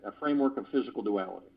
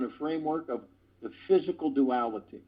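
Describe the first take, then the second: First: Low, quick tongue-twister run-through; fast repeat. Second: Said in the usual way. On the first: Shown as a demonstration. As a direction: rattle it off quickly in a lower pitch. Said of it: "ten times fast".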